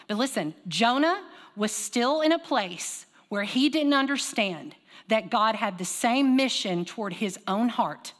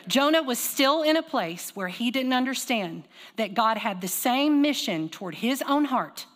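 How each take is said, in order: First: Slow emphasis. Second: Slow, deliberate restatement; slow repeated emphasis. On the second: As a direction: say it again slowly, leaning on "same". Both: Shown as a demonstration. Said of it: "I'm gonna say it again".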